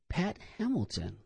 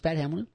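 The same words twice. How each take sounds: First: The name is said slowly and clearly enunciated. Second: The name is said quickly, without special care. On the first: The speaker calls it right. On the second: The speaker calls it wrong.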